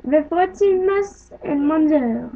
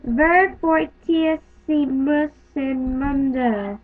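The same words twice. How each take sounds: First: "Ver fortissimus in Mundo" a bit faster, stress on "fortissimus"; smoother Latin reading. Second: "Ver fortissimus in Mundo" read very slowly, each syllable spaced; slow careful Latin. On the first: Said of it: "Let's try that again". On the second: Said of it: "All right, ready?". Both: Shown as a demonstration.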